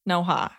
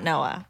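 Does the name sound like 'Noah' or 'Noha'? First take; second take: Noha; Noah. First: The name is said with an h sound, Noha. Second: The name is said without the h, like Noah. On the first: The speaker calls it right. "pronounced Noha" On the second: The speaker calls it wrong. "not Noah, like everyone likes to say"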